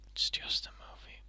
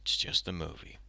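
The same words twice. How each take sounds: First: Self-calming whisper. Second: Calming self. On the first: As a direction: whisper "It's just a movie" to calm yourself. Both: Real, not acted. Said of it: "calm down".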